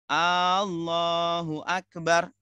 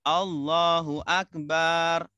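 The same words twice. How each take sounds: First: The opening A vowel is held long. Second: The final ba vowel is held long. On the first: It asks whether Allah is the greatest. "Kalau sumpama kita panjangkan A-nya" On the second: It calls Allah a drum. "kalau kita panjangkan baknya"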